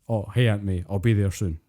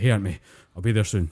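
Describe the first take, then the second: First: It is said in a relaxed, normal voice. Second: It is said in a strained, effortful voice.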